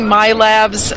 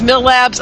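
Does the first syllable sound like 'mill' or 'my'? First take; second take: my; mill. First: The first syllable sounds like 'my'. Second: The first syllable sounds like 'mill'. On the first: "I say My Labs" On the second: "one person I know says Mill Labs"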